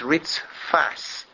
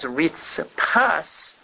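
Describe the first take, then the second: First: The middle consonant is an f sound. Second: The middle consonant is a p sound. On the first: It means a floor or pavement. The speaker calls it right. "a correct way to say it is ritzfas. ... careful to say it with a fe" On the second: It means a coal. The speaker calls it wrong. "If he says Ritzpas Bahat Vashesh, Ritzpas actually means a coal"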